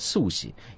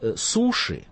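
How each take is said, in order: First: The middle consonant is a plain s. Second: The middle consonant is a sh sound. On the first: This is how Japanese speakers say it. The speaker calls it right. "японцы говорят суси" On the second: This is how it is said in Russia. The speaker calls it wrong. "у нас говорят суши, то это неправильно"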